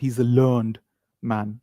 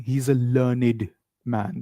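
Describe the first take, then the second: First: Learned has one syllable, ending in a 'd' sound. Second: Learned has two syllables, ending in an 'id' sound. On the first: The speaker calls it wrong. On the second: The speaker calls it right. "they say he's a learned man ... Learn id, learned"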